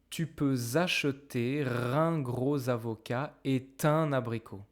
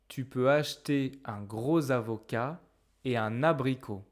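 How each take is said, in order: First: Final consonants link into the following vowels. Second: Words are said separately, without linking consonants. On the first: "Why don't we do this liaison right here?" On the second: "when I read the sentences, I didn't pronounce the liaison"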